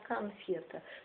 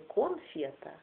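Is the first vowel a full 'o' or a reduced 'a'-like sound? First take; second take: reduced; full o. First: The first vowel is a reduced 'a'-like sound. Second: The first vowel is a clear, full 'o'. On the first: The speaker calls it right. "а конфета. То есть вот это акающее наше русское произношение" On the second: The speaker calls it wrong. "Не конфета"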